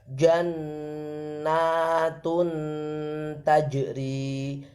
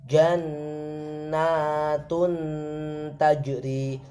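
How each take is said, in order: The two takes are said the same way.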